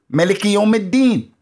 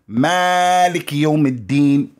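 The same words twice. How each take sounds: First: The first vowel of Malik is said short. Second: The first vowel of Malik is drawn out long. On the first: "Or you can say" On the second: "with the elongation"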